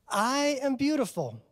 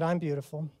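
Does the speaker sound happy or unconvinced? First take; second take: happy; unconvinced. First: It sounds happy and smiling. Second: It sounds flat and unconvinced.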